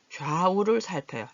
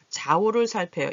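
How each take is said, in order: First: 좌우를 with a clear w glide, jwa-u; full diphthong. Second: 좌우를 said as ja-u, without the w glide; simplified diphthong. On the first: Teacher reads the practice sentence, careful full 좌. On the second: Teacher shows how some people read it, reduced 좌. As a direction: drop the w from 좌 in 좌우를. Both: Shown as a demonstration. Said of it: "이렇게 읽으시는 분도 계신데".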